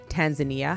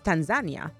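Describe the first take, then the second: First: It is said the North American way. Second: It is said the way Tanzanians say it. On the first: "Americans and Canadians, we pronounce it as Tanzania" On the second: "I've heard people from Tanzania pronounce it as Tanzania"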